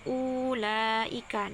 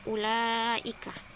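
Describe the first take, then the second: First: The first vowel is lengthened. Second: The first vowel is kept short. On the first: The speaker calls it wrong. "apabila dibaca maka e, terdapat bacaan maqtabi'i menjadi" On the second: The speaker calls it right. "wawu yang tidak berharokat maka tidak dibaca menjadi"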